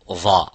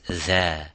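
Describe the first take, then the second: First: It is said heavy, with a full mouth. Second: It is said light, with an empty mouth. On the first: The speaker calls it wrong. "you don't say this letter would be dha" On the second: The speaker calls it right. "It is dha. So it has istifal and tarqiq... empty mouth"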